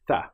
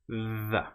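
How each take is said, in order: First: The th sound is voiceless, only air pushed through. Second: The th sound is voiced, with buzzing vocal cords. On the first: "The non-voiced sound here is where we don't engage the vocal cords" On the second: "The voiced version is the. ... then we let our vocal cords engage"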